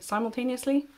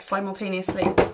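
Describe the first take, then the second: First: The word has a British pronunciation. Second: The word has an American pronunciation.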